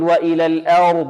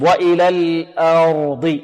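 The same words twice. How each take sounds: First: The vowel after the hamza is tilted toward e. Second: The vowel after the hamza is a plain open a. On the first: The speaker calls it wrong. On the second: The speaker calls it right.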